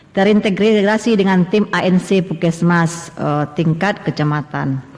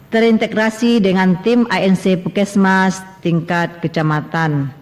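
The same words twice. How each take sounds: No difference in how they are said.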